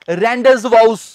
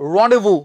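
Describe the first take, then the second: First: A z sound is pronounced in the middle. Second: No z sound is pronounced in the middle. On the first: The speaker calls it wrong. "ਇਹਦੇ ਵਿੱਚ ਆਪਾਂ ਜ਼ੈਡ ਨਹੀਂ ਬੋਲਦੇ, ਤਾਂ ਤੁਸੀਂ ਇਹ ਨਹੀਂ ਕਹਿਣਾ" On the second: The speaker calls it right. "ਇਹਦੇ ਵਿੱਚ ਆਪਾਂ ਜ਼ੈਡ ਨਹੀਂ ਬੋਲਦੇ"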